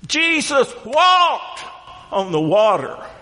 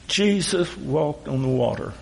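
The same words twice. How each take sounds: First: It is said with excitement and enthusiasm. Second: It is said flatly, without enthusiasm. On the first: It is an astonishing event. The speaker calls it right. "no, that's not right" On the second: It is an ordinary, familiar fact. The speaker calls it wrong. "we've lost our excitement and the enthusiasm"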